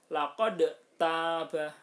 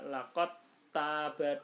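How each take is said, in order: First: "laqad taba" with the d sounded and released before the t; "laqad taba" with a bouncing d, not merged; unmerged dal, wrong. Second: "laqad taba" said as laqat-taba, d dropped; "laqad taba" with no d heard, long a in taba; merged dal, correct. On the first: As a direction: loudly say "laqad taba" as two separate sounds, d then t. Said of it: "ndak boleh dibaca". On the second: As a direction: recite "laqad taba" with the d melted into a doubled t. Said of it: "harus dibaca". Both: Shown as a demonstration.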